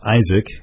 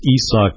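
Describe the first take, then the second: First: The name sounds like the English name Isaac. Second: The name sounds different from English Isaac. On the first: The speaker calls it wrong. "sorry for mispronouncing your name for about a season as Isaac" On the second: The speaker calls it right. "It's Isak Paredes"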